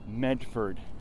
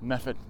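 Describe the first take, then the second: First: It is said plainly, the way it's spelled. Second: It is said in the local accent. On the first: "it's spelled Medford" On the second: "if you listen to the locals"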